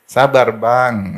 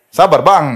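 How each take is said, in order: First: Very slow, gentle "Sabar, Bang"; soft and slow. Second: Loud, higher "Sabar, Bang". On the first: Preacher teaching wives to calm husbands, slow gentle. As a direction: stretch it out soothingly. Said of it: "Halus ngomongnya". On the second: Wife calming her husband, loud firm reply. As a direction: call it out firmly. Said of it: "Nah, ini nih". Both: Shown as a demonstration.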